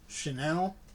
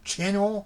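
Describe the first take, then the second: First: The name is pronounced in a fancy way. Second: The name is pronounced in a plain, basic way. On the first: "more fancy" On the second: "more basic"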